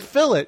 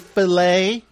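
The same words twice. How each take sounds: First: It is said in a British way. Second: It is said in an American way.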